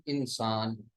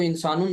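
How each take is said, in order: First: इंसान stopped on the final n; pausal form. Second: इंसानुन with the final -un sounded; full case ending. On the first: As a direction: drop the case ending and stop at इंसान. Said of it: "वक्फ कर देना है". (इंसान, आख़िरी हर्फ पर वक्फ) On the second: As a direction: say इंसानुन with its tanween ending, not stopped. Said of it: "इंसानुन ना पढ़ करके वक्फ कर देना है". (इंसानुन, आख़िर में तनवीन के साथ) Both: Shown as a demonstration.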